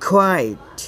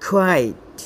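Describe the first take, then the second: The two takes are said the same way.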